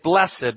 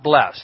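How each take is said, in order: First: The word is said with two syllables. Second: The word is said with one syllable. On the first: It refers to the blessedness in this passage. The speaker calls it right. "We say blessed" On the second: It refers to the everyday sense, as in isn't she blessed. The speaker calls it wrong. "not blessed"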